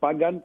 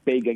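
First: The word is said without an American pronunciation. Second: The word is said with an American pronunciation. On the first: The speaker calls it right. "Το Pagan" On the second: The speaker calls it wrong. "και όχι Pagan, ... Pagan είναι αμερικάνικη εκφράση"

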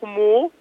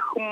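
First: It ends with an added 'oo' vowel. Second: It is a bare hum with no vowel. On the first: The speaker calls it wrong. "όχι χμού" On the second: The speaker calls it right. "Είναι χμ"

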